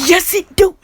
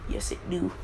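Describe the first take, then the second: First: Much higher, louder silly cartoon voice; goofy squeaky voice. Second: Said in the usual way. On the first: Deku insisting the dog bites, loud high silly squeal.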